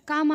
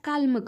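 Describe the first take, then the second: First: The word is said without any L sound. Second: The word is said with an L sound. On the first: The speaker calls it right. "शब्दाचा उच्चार काम आहे" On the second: The speaker calls it wrong. "बरेच जण त्याचा उच्चार काल्म करतात"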